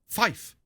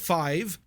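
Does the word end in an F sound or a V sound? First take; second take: F sound; V sound. First: The word ends with an F sound. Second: The word ends with a V sound. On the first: The speaker calls it right. "but fife" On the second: The speaker calls it wrong. "Not five"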